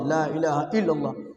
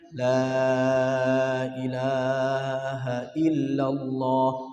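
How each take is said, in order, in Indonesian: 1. Frasa itu diucapkan dengan keras dan menuntut. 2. Frasa itu diucapkan dengan lembut dan pelan. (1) "jangan demikian. Yang lembut" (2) "dengan kalimat yang lembut di telinga kanan ... pelan-pelan"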